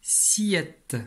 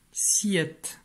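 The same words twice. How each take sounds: First: Said in the usual way. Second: Whispered. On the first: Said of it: "Syllabe suivante, c'est la syllabe". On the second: Shown as a demonstration. Teacher whispering the syllable again for the pupil. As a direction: repeat "Siette" in a breathy whisper.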